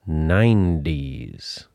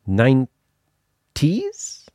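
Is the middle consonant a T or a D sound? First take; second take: d; t. First: The middle consonant is a soft D sound. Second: The middle consonant is a clear T sound. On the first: The speaker calls it right. "That's a D sound" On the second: The speaker calls it wrong.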